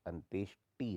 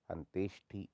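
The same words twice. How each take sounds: First: Said in the usual way. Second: अंत्येष्टि said as anteshthi; aspirated thi. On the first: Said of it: "टी होता है". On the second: Shown as a demonstration. Teacher shows the error, अंत्येष्टि with ठी. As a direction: puff air on the end of अंत्येष्टि. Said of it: "ठी नहीं होता".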